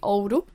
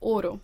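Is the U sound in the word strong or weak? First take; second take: strong; weak. First: The U sound is pronounced strongly. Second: The U sound is pronounced weakly. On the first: The speaker is from the north. "if you are from the north, where I'm from, you would pronounce the U quite strongly" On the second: The speaker is from the south. "if you'd be from the south, you'd pronounce it"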